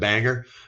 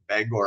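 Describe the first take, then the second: First: The second syllable sounds like 'er'. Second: The second syllable sounds like 'or'. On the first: The speaker calls it wrong. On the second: The speaker calls it right.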